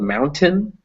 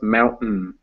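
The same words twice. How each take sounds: First: The T is pronounced as a full T. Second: The T is replaced by a glottal stop. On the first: "it's spelled mountain" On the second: "but it's pronounced mountain"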